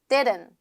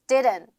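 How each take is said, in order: No difference in how they are said.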